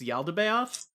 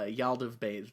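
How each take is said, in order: First: The name is pronounced in its standard form. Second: The name is pronounced in a garbled, mangled way. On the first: The speaker calls it right. "if you want me to say it right" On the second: The speaker calls it wrong. "doing the fucked up Caliborn bit of saying it wrong all the time"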